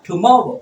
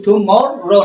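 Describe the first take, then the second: First: "টুমরো" with only one r; single r. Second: "টুমরো" with both r's sounded; the mistaken double-r "টুমরো"; doubled r. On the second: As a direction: say "টুমরো" as tu-mor-ro, r twice. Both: Shown as a demonstration. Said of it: "একটাই আর উচ্চারণ করা যাবে".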